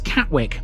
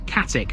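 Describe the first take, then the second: First: The W of the ending is pronounced. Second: The W of the ending is left out. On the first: "pronounced Wick" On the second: "it's Ick, it omits the W"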